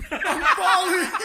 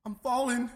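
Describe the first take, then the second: First: High, loud, drawn-out wail; mock panicked yell. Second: Retold worry, only slightly raised; mild mock panic. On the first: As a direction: imitate her panic at full volume. Stoned sister's panic, escalating. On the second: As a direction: imitate the first uneasy cry. Stoned sister's panic, first cry.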